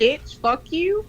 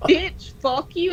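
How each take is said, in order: First: Slow mock tough line through laughter; showing how a friend should snap, slow and laughing; tough voice demo, laughing. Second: Slow mock tough line, still laughing; repeating the demo for friends, slow and laughing. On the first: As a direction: drag it out, laughing at yourself. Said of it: "say it in a real voice". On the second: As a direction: say it slow, giggling through it. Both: Shown as a demonstration.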